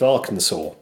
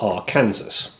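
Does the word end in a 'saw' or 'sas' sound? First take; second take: saw; sas. First: The word ends with a 'saw' sound. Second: The word ends with a 'sas' sound. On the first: The speaker calls it right. "he was governor of the state of Arkansas" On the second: The speaker calls it wrong. "if you want to be an idiot and call it that"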